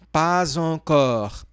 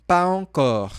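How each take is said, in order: First: "Pas encore" linked as paz-encore; with liaison. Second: "pas encore" said pa, encore, no z; without liaison. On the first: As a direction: join the s to encore as z. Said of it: "uma pequena ligação". ("Pas encore" com ligação, paz encore) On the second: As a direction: keep pas and encore apart. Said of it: "falar sem fazer a ligação". ("pas encore" sem ligação) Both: Shown as a demonstration.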